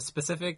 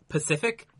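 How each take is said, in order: First: The word is said with the opening s sound. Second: The word is said without the opening s sound. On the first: The speaker calls it right. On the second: The speaker calls it wrong.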